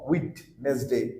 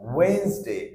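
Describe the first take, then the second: First: The middle d sound is clearly pronounced. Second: The middle d sound is left out. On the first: The speaker calls it wrong. "Not উইটনেসডে আর with ড" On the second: The speaker calls it right. "ডি উচ্চারণ হচ্ছে না"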